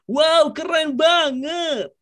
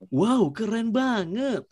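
First: The voice is high and cheerful. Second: The voice is at a medium pitch. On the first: "yang up-nya itu agak sedikit cheers up" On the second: "Yang middle"

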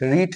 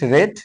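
First: The vowel is long, like 'reed'. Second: The vowel is short, like 'red'. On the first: It is the present form of the verb. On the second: It is the past form of the verb.

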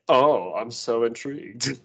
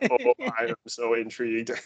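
First: It is said in a natural speaking voice. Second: It is said in a flat robotic voice.

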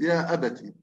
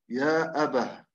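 First: The word ends with a t sound. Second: The word ends with an h sound. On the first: The reciter continues on without stopping. "في حال الوصل ... يقرأ بالتاء" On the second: The reciter has stopped at this word. "يقف عليها بالهاء"

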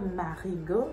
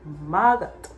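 First: The name is said in full, all syllables. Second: The name is said shortened, a syllable dropped. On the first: This is the official form of the name. "Instead of Marigot" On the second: This is how locals casually say it. "we just say Margot"

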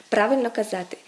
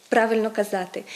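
No difference in how they are said.

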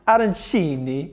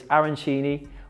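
First: It is said in an Italian accent. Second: It is said in a plain English accent.

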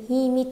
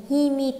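No difference in how they are said.

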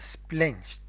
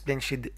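First: The word ends with a t sound. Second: The word ends with a d sound. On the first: The speaker calls it right. "انظر كيف نطقناها splashed تي" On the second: The speaker calls it wrong. "ما قلت splashed"

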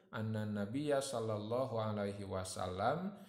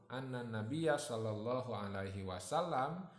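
Both takes have the same delivery.

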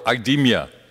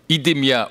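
First: The name is pronounced the English way. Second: The name is pronounced the French way. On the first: "or in English" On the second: "depending on whether you pronounce it in French"

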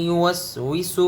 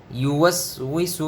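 No difference in how they are said.

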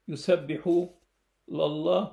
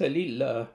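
First: The L is followed by an 'a' vowel. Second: The L is followed by an 'i' vowel. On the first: God is the object of the glorifying. The speaker calls it right. "الصحيح قراءة" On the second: The glorifying is done for God. The speaker calls it wrong. "وليس"

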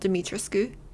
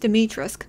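First: The final vowel sound is clearly pronounced. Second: The final vowel sound is left silent. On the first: The speaker calls it wrong. "not Dimitrescu" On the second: The speaker calls it right. "apparently it's Dimitrescu"

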